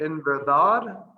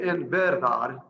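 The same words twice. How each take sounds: First: "En verdad" with the weight on dad, slow and loud; stress on last syllable. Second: "En verdad" with no push on the final A, said quickly; wrong stress. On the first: Teacher shows the correct stress, slow with the final syllable punched. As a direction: lean on the final A of "verdad", falling. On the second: Teacher shows the wrong way to say it, flat and quick. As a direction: toss off "verdad" with flat, even syllables. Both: Shown as a demonstration. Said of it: "you don't wanna say".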